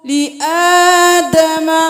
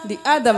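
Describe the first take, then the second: First: The first vowel of adam is drawn out long. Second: The first vowel of adam is cut short. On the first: The speaker calls it right. "खड़ी जबर है, खींचे" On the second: The speaker calls it wrong. "लि आदम नहीं करना"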